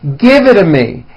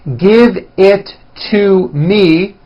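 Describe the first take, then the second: First: The words are reduced and run together. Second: Each word is said fully and separately.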